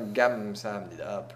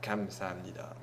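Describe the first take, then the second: First: The phrase begins with a soft G sound. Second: The phrase begins with a hard K sound. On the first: "c'est plus un G" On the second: "si vous prononcez kam samnida, ils comprendront pareil"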